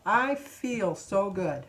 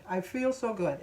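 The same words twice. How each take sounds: First: Slow affirmation. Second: Said in the usual way. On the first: Real, not acted. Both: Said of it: "repeated affirmation".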